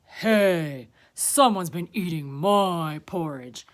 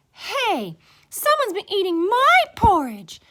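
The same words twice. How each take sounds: First: Big, loud bear voice; Papa Bear. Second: High, loud, indignant she-bear; Mama Bear. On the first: Papa Bear finding his porridge eaten, loud indignant voice. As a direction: boom it out, indignant. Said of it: "Papa Bear looked at his porridge". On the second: Mama Bear finding her porridge eaten, high loud voice. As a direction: cry out high and offended. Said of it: "Mama Bear looked at hers". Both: A narrator's reading.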